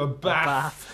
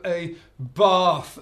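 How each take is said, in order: First: It is said in a northern English accent. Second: It is said in a southern English accent. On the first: This is the speaker's native Yorkshire way. "as opposed to" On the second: Years in the south have changed the speaker's speech. "I've lived down in the south for far too long now. I am known to have"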